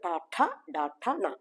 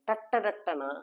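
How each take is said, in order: First: The letters are said separately and firmly, with aspiration. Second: The letters are run together in one quick string. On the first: This is the standard way of saying it. The speaker calls it right. "ഉറപ്പിച്ചു ... അതാണ് ശരിയായ ഉച്ചാരണം" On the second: This is a regional way of saying it. The speaker calls it wrong. "സ്ഥലങ്ങളുടെ വേരിയേഷനിൽ നമുക്ക് ഈ ഉച്ചാരണത്തിൽ വ്യത്യാസം"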